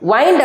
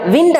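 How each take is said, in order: First: The vowel is a long 'eye' sound. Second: The vowel is a short 'i' sound. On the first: It means to coil or twist. "வைண்ட் அப்படின்னா சுத்துறது" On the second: It means moving air. "விண்ட் அப்படின்னா காற்று வீசுறத"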